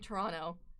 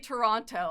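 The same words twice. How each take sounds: First: Toronto is pronounced the way locals say it. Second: Toronto is pronounced the way outsiders say it. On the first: The speaker says it this way. The speaker calls it right. "I say" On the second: Other people say it this way. The speaker calls it wrong. "I don't say"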